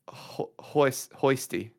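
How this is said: The name is said in a southern accent.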